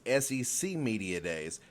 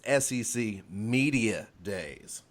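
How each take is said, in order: First: The stress falls on SEC. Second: The stress falls on Media. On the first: The event is about the conference's home region. The speaker calls it wrong. "You think it's" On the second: The event is about media exposure. The speaker calls it right. "but it's"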